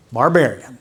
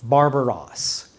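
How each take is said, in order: First: Barbarian said the plain English way; now give the English Barbarian. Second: Barbaros said slowly, Greek style. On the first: Pastor contrasting Greek and English, plain English word. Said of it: "That's how we would say it in English". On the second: Pastor sounding out the Greek word, slow and clear. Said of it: "the Greek word is barbaros". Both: Shown as a demonstration.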